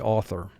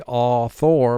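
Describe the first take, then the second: First: The second syllable is said reduced and relaxed. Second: The second syllable is said fully and exaggerated. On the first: This is the everyday pronunciation. "but in pronunciation, we generally just say author" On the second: This is a spelling aid pronunciation. "So for spelling, we say author"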